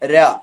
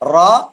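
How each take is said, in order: First: The r sound is light and thin. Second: The r sound is heavy and full. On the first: "ര എന്നത് റാഇന്റെ ഇസ്തിഫാലായ അവസ്ഥയാണ്" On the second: "റാ എന്നത് റാഇന്റെ മുഫഹമായ ഇസ്തില ആയ അവസ്ഥയാണ്"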